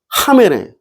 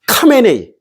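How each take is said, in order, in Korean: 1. 이 이름은 숨이 섞인 H 소리로 시작해요. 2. 이 이름은 세게 나는 K 소리로 시작해요. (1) "이렇게 들려" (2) "이렇게 안 들린다니까"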